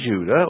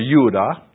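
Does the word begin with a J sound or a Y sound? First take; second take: J sound; Y sound. First: The word begins with a J sound. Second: The word begins with a Y sound.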